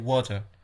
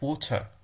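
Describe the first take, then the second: First: It is said in an American accent. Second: It is said in a British accent. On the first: "In American English, you'll hear" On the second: "in British English, you'll hear"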